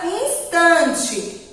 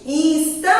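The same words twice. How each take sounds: First: Said in the usual way. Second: "Instante" with a long held TAN; drawn-out stressed syllable. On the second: Shown as a demonstration. Teacher showing children where she lingers, drawn out. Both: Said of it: "A tia demorou mais no".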